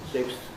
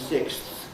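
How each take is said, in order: First: The final consonants are blended into one articulation. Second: Each final consonant is pronounced separately and clearly. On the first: "that's more normal" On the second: "I'm exaggerating the clarity of it"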